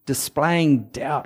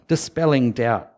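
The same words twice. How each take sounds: First: Slow "displaying" said in place of "dispelling"; wrong word. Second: "dispelling" said softer and lower, dis-PEL-ling; corrected word. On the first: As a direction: stumble on "displaying", said dis-PLAY-ing. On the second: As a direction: settle on "dispelling" with a stress on PEL. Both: Real, not acted. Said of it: "or what's the word?".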